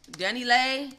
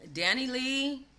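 First: Danny Lay, ending in ay; Danny Lay, said with an ay sound, a bit louder; corrected name. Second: Danny Lee, with a plain ee; Danny Lee, ending on a long ee; said the usual way. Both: Shown as a demonstration.

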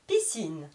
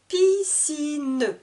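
First: Said in the usual way. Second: "Piscine" high, drawn out as Pi-sci-ne; split into syllables. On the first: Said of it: "je vous répète le vocabulaire de chaque mot". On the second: Shown as a demonstration. Teacher counting three syllables, "Piscine" with final e sounded. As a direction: stretch all three beats of "Piscine". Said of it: "Il y a trois syllabes".

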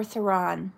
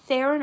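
First: THERON stressed on the last syllable, thuh-RON; second pronunciation option. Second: THERON stressed on the first syllable, THAIR-in; first pronunciation option. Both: Shown as a demonstration. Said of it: "Do you say her name?".

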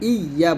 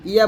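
First: ইয়া lingering on a doubled y; correct doubled ইয়া. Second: ইয়া quick with one light y; wrong undoubled ইয়া. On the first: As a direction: lean into the y of ইয়া before aa. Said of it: "এখানে ইয়া বলতে হবে". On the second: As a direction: say ইয়া short, skipping the doubling. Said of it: "ইয়া বলা যাবে না". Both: Shown as a demonstration.

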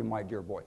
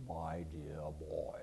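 First: Put-on a lighter, quicker echo of the senator's "my dear boy", only a bit lower; just a hint of the low senator voice; Dirksen's voice, lightly. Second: Very low, soft, slow senatorial rumble; Dirksen's mellifluous voice. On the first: Repeating the senator's catchphrase in passing, lightly voiced. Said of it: "He called everybody". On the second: Retold or imitated. Imitating the senator's famous voice for the audience, low and slow. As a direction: stretch "My dear boy" out deep and slow like an old senator. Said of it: "he always spoke like this".

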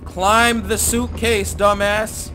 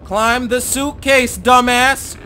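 First: Angry command. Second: Slower, even louder shout; louder angry command. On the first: Ordering the game character. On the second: Player repeating the order, louder and angrier. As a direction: push it harder the second time. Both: Real, not acted.

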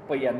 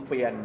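No difference in how they are said.

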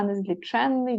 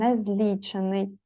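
First: Незліченний with stress on ЧЕН, long нн; stress on third syllable. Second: Незлічений slowly, stress on ЛІ; stress on second syllable. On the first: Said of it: "а незліченний дві". (незліченний: наголос на ЧЕН, подовжене «нн») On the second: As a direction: hit ЛІ in незлічений, single н. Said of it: "незлічений одна". (незлічений: повільно, наголос на ЛІ) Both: Shown as a demonstration.

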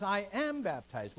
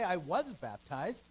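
First: "I am baptized" slow, am punched hard; stress on AM. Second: "I was baptized" slow, with I leaned on; stress on I. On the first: Teacher correcting the wording, slow stress on AM. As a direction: hit "am" in "I am baptized" and draw it out. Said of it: "He says". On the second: Teacher contrasting Luther's wording, slow stress on I. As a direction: say "I was baptized" slowly, weight on I. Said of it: "he didn't say". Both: Shown as a demonstration.

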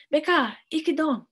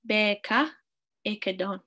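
First: "Beka, ike don" high, loud and urgent; emphatic high "Beka!", falling at the end; exclamation. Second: Said in the usual way. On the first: Shown as a demonstration. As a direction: exclaim "Beka, ike don" to stop a too-fast talker. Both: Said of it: "this has an exclamation mark as well".

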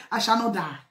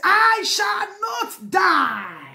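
First: Said in the usual way. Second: Slow, higher shouted declaration; fervent shout. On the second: Real, not acted. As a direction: proclaim it slowly at full voice. Climax of crying prayer.

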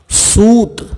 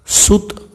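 First: सूत with a long, higher-pitched ू; long vowel. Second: सुत with a quick, short ु; short vowel. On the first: Teacher reading the word for thread, सूत drawn out. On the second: Teacher reading the word for son, सुत said short. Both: Shown as a demonstration. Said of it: "उसका वाचन मैं आपको".

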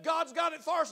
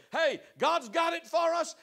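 First: Shouted Caleb. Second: Bold Joshua. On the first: Caleb voiced in the story. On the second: Joshua voiced in the story. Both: Acted.

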